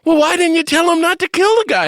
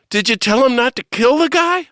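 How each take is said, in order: First: Very high, loud exasperated yell; retold yelling. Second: High, loud indignant question; raised voice, mock-angry retelling; retold mad outburst. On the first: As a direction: yell it in comic disbelief. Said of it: "I started yelling at Mother Teresa". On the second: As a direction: demand it, reenacting your exasperation. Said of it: "I got mad at Mother".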